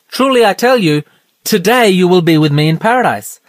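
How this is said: There is a pause before the word today.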